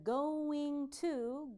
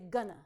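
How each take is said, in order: First: Both words are said fully and separately. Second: The words blend into one short reduced word.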